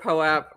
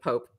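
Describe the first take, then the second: First: The word does not rhyme with soap. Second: The word rhymes with soap. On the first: The speaker calls it right. "I prefer POAP rather than Pope" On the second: The speaker calls it wrong. "Pope is weird to me"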